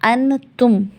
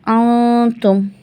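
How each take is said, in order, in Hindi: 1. न की ध्वनि साफ़ और पूरी तरह बोली जाती है। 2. न की ध्वनि नाक की गुनगुनाहट के रूप में छुपी होती है। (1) "अन तुम ऐसे नहीं निकलेगा" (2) "जब हम खुद गुन्ना करेंगे, नाक को नाक में घुमाएंगे"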